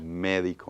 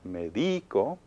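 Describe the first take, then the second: First: The stress is on the first syllable. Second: The stress is on the second syllable. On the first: The speaker calls it right. "We hear it on the me" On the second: The speaker calls it wrong. "it naturally should be stressed on the D"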